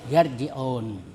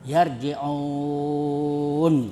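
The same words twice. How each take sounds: First: The vowel before the final n is held briefly. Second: The vowel before the final n is held very long. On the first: "satu alif atau dua harakat atau seperti mat tabi'i" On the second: "tiga alif atau enam harakat"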